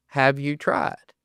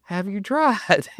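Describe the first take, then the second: First: Slow pointed question. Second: Slow, raised, stressing tried; higher pointed retort. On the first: [name] to doubtful owner, slow pointed question. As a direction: ask it slowly and dryly. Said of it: "I look at 'em and I go". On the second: [name] repeating to the owner, slow higher retort. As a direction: lift it and lean on tried. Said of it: "And I go". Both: Retold or imitated.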